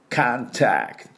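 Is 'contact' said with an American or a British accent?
American. The first vowel is an open 'ah' sound. "アメリカ英語だともう少し、口を開いてカーに聞こえてる"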